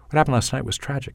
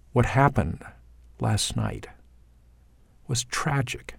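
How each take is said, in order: First: Fast, run together in one breath; Canadian accent, rushed and rising; Canadian delivery. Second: Slow, each phrase falling and fading; American delivery. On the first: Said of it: "as a typical Canadian". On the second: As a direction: lay each word down with a falling long vowel. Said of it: "here's the line". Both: Shown as a demonstration.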